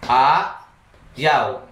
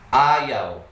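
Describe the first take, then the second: First: The word is split with a pause between syllables. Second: The word is said smoothly without pauses.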